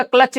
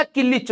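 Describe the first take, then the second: First: Said in the usual way. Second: किलिच drawn out slowly as ki-lich for clutch, laughing; किलिच stretched with a laugh instead of clutch; local pronunciation. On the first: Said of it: "bike का क्लच नहीं होता". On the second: Shown as a demonstration. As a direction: say किलिच the village way, slow and amused. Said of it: "किलिच होता है".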